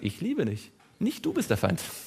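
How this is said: The pause comes right before the word nicht. The speaker loves the listener. "weil ich das Komma um ein Wort verschoben habe"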